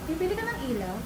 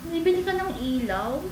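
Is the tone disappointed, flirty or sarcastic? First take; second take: flirty; disappointed. First: It sounds playful and flirty. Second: It sounds sad and disappointed.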